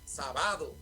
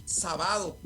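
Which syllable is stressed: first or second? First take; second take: second; second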